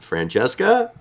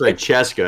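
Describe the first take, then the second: First: The name is said with a marked inflection. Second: The name is said plainly, without extra inflection. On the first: This imitates how the other person keeps saying it. The speaker calls it wrong. "It's not" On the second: This is how the name is really meant to be said. The speaker calls it right. "it's actually just"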